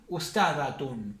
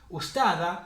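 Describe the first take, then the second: First: The word ends with a pronounced t-u-n ending. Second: The word ends on a plain vowel, ending dropped. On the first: "pronunciar todo" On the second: "sin leer la tamarbuta ni esto"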